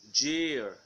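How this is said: The word ends in an er sound. "American year"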